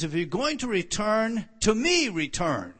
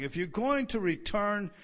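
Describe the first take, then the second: First: "to me return" punched louder, "me" hit hard; stress on to me. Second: Said in the usual way. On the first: Shown as a demonstration. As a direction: lean hard on "to me". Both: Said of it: "the emphasis upon "to me".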